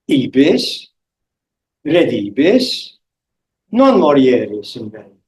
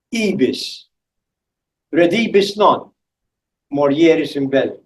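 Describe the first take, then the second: First: Ibis, redibus, pause, "non morieris in bello" in one breath; pause before non. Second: Ibis, redibus non, pause, morieris in bello; pause after non. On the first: Lecturer showing students the other pause placement, "non" starting the phrase. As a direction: break after "redibus" and join "non" to "morieris". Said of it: "a different pause and a different accent". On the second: Lecturer demonstrating a pause placement to students, pausing after "non". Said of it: "I'm going to say it in two different ways". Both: Shown as a demonstration.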